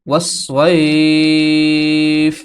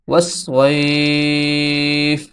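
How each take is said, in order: Both takes have the same delivery.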